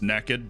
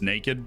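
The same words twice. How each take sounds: First: The word has a southern regional pronunciation. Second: The word has a standard general pronunciation. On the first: The speaker calls it wrong. "determined to convince everybody that the word was pronounced naked" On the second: The speaker calls it right. "but it's naked"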